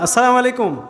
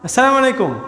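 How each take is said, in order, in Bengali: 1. সালামটি জড়িয়ে বলা হয়েছে, কিছু ধ্বনি গিলে ফেলা হয়েছে। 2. সালামটি জড়িয়ে বলা হয়েছে, কিছু ধ্বনি গিলে ফেলা হয়েছে।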